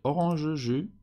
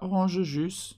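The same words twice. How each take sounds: First: The final S of jus is silent. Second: The final S of jus is pronounced. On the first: The speaker calls it right. "Évidemment, le S n'est pas prononcé" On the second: The speaker calls it wrong. "c'est pas orange jus"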